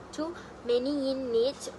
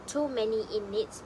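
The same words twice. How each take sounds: First: "too many in needs" linked with no pause; linked words. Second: Said in the usual way. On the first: Shown as a demonstration. Teacher demonstrating connected speech, "too many in needs" linked without pauses. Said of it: "linked with no pause". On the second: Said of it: "native speaker link words together".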